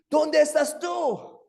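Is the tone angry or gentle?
angry. It is said in an angry, threatening tone.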